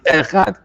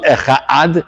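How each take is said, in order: First: The word is said as one unit. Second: The word is broken into two parts. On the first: It means one God. The speaker calls it right. "it's echad. It's one word" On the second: It sounds like two separate words. The speaker calls it wrong. "it becomes two words. It's not echad"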